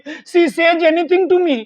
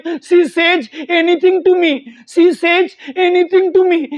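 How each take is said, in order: First: Very slow, evenly spaced words; slow model line. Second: Very slow, repeated for practice; slow practice drill. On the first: Teacher slowly voices the wife's English complaint. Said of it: "अब इसकी English क्या बनेगी". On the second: Teacher repeats the wife's line slowly for practice. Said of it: "ऐसे आप बार-बार practice करोगे ना". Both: Shown as a demonstration.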